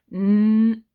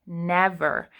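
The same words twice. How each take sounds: First: "N-ev-er" split into slow syllables; sounding out. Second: Said in the usual way. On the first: Shown as a demonstration. Teacher sounding out never for kids, syllable by syllable. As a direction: break "N-ev-er" apart slowly. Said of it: "so I'm gonna say it slowly". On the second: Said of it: "my next word is never".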